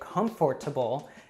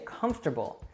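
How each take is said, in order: First: Every syllable of the word is pronounced. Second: One middle syllable of the word is dropped. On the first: Native speakers rarely say it this way. "it's pretty rare that you'll hear a native say" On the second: Native speakers usually say it this way. "Usually we just say"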